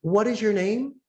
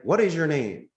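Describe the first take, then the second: First: High, bright and curious, rising at the end; cheerful receptionist asking the caller's name; friendly question. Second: Curt "What is your name?" falling flat at the end; mildly defensive receptionist; negative tone. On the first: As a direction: ask "What is your name?" warmly, lifting on "name". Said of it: "might have a negative tone". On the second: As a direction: ask "What is your name?" a bit suspiciously. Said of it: "sometimes they might have a negative tone". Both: Retold or imitated.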